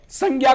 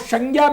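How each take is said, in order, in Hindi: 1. पहला व्यंजन दंत्य s ध्वनि है। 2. पहला व्यंजन अदंत्य सिबिलेंट है। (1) "अगर स जो दंत्य है" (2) "अशुद्ध माना जाएगा"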